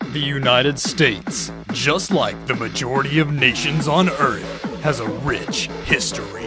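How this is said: It is said in a deep movie-trailer voice.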